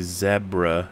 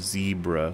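First: The word is said the British way. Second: The word is said the American way. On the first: This is how the UK, Australia and Canada say it. The speaker calls it right. "We say zebra" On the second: This is how the US says it. The speaker calls it wrong. "instead of zebra, like plebeians"

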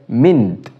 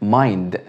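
First: The vowel is a short 'i' sound. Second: The vowel is a long 'ai' sound. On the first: "ألا تشبه كلمة mint؟" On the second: "نطقناه بالصوت الطويل"

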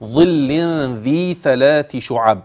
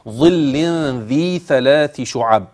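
First: The 'dh' and 'th' sounds are made with tongue protrusion. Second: The 'dh' and 'th' sounds are made with tongue protrusion.

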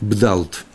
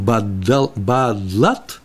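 First: B and D are said together with no vowel. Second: A vowel is said between B and D. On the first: "В одной написано, это арамейский язык, очень красивый язык, бдалт" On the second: "а втором бадлат"

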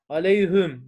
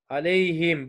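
First: The last syllable has a u vowel. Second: The last syllable has an i vowel. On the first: The basic form of the pronoun is kept. The speaker calls it wrong. "Aleyhüm demek zor geliyor insana" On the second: The sound eases after a preceding sukun ya. The speaker calls it right. "Y cezimli olduğu için aleyhim olmuş"

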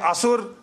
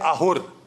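First: The middle consonant is an S sound. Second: The middle consonant is an H sound. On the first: This is the Indian form of the word. "when we say Asur" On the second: This is the Persian form of the word. "they say Ahur"

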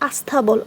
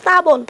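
First: A vowel sound is added before the consonant cluster. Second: The word starts directly with the consonant cluster. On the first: "আমরা কিন্তু আস্থাবলই বলি" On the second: "স্থাবল শব্দটাকে আমরা কি বলি?"

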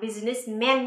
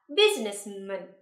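First: The last syllable is a full 'man'. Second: The last syllable is a weak, reduced 'mun'. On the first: The speaker calls it wrong. "chúng ta sẽ không đọc là businessman nhé" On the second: The speaker calls it right. "mà chúng ta sẽ đọc là businessman"

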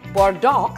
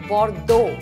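First: The final X sound is pronounced. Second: The final X sound is silent. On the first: The speaker calls it wrong. "It's not Bordeaux" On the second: The speaker calls it right. "The X is silent"

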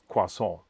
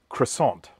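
First: It is said roughly the French way. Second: It is said the Australian way.

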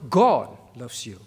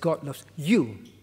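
First: The stress falls on the word God. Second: The stress falls on the word you. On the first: The focus is on God as the one who loves. "It's not" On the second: The focus is on the listener being loved. "Modern Christianity is all about you"

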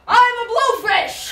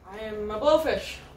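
First: It is said loudly. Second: It is said fairly quietly.

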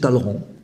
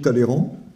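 First: The vowel after the double L is silent. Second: The vowel after the double L is pronounced. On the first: The speaker calls it right. "c'est Talleyrand, en fait. Il ne faut pas dire le « et »" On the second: The speaker calls it wrong. "j'ai toujours dit Talleyrand"

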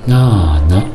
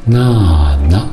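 Both takes have the same delivery.

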